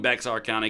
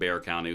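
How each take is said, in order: First: The x in the name is pronounced. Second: The x in the name is silent. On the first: This follows the written spelling. "I'm going Bexar County because it's right there on the screen" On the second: This is how a local says the name. "he called it Bear County with the silent X"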